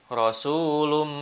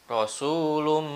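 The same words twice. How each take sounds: The two takes are said the same way.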